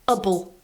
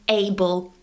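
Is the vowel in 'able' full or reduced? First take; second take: reduced; full. First: The vowel is reduced and weak. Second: The vowel is full and strong. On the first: "it becomes able" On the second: "we use the strong form able"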